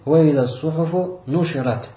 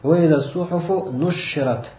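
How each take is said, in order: First: The sh sound is short and single. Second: The sh sound is held long, doubled. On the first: "основное чтение" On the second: "С удвоением буквы «шин»"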